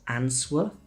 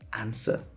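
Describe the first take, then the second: First: A W sound is pronounced in the middle. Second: No W sound is pronounced in the middle. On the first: The speaker calls it wrong. "It's not answer" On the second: The speaker calls it right. "The W in the middle is completely silent"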